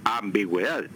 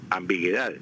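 First: "ambigüedad" said as ambigweda, with the u heard; u sounded. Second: "ambiguedad" said as ambigedad, with the u silent; wrong without dieresis. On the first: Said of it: "para que quede ambigüedad". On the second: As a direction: drop the u in "ambiguedad". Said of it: "quedaría ambiguedad". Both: Shown as a demonstration.

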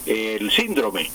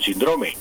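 First: "síndrome" said slowly, SÍN-dro-me; slow, careful "síndrome" with the accent on the í; common Colombian stress. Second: "síndrome" said sin-DRO-me; corrected stress. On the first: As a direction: hit the first syllable of "síndrome". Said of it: "lo más común aquí es". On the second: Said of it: "eh, perdón". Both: Shown as a demonstration.

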